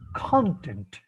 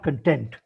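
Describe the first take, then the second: First: The stress is on the first syllable. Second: The stress is on the second syllable. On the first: It is the noun meaning subject matter. The speaker calls it right. "should always be pronounced as content" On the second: It is the verb form. The speaker calls it wrong. "not content"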